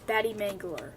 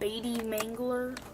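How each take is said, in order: First: The first vowel sounds like 'bat'. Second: The first vowel sounds like 'beet'. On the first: "the pronunciation for my channel name is" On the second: "making extra pronunciations like"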